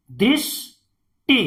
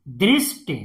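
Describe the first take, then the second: First: "दृष्टि" as "drish", long pause, "ti"; syllable by syllable. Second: Said in the usual way. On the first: Shown as a demonstration. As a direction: split "दृष्टि" in two. Teacher sounds out, then blends. ("दृष्टि" को तोड़कर पढ़ना)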